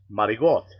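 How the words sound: It is said in the East Coast Italian way. "if you're Italian, it's marigot"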